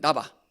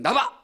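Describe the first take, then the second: First: It is said in a mildly displeased tone. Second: It is said in a clearly angry tone.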